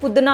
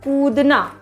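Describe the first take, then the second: First: The first vowel is clipped short. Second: The first vowel is drawn out long. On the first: The speaker calls it wrong. "ना कि" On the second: The speaker calls it right. "बड़ा ऊ में क्या होता है? स्लो होता है।"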